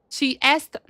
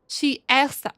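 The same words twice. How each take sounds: No difference in how they are said.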